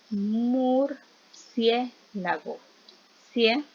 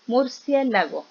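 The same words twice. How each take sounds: First: "Murciélago" slowly broken into mur, cié, lago, then "Cie" alone; syllable split. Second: Said in the usual way. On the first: Shown as a demonstration. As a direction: sound out "Murciélago" in separated chunks, isolating "Cie". Teacher splits word to show diphthong. ("Murciélago" lento y por sílabas, luego "Cie" aislado)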